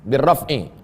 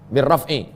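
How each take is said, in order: The two takes are said the same way.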